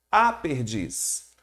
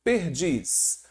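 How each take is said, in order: First: Article a slow and stressed in "a perdiz"; a stressed to mark feminine. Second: Said in the usual way. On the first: Shown as a demonstration. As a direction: slowly lean on the a of "a perdiz".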